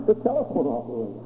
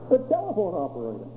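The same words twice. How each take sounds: The two takes are said the same way.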